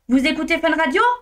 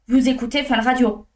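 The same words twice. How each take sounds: First: The voice rises at the end. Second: The voice falls at the end. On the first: It is a question. "L'intonation monte en fin de phrase" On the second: It is a statement. "C'est une affirmation"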